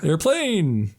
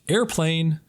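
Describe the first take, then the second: First: It is said loudly with lots of energy. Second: It is said flatly, as a list item.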